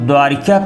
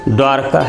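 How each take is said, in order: First: An extra 'i' vowel is heard after 'r'. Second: No vowel is heard between 'r' and 'k'. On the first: The speaker calls it wrong. "इसको लोग द्वारिका कहते हैं" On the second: The speaker calls it right. "शुद्ध शब्द क्या है? द्वारका है"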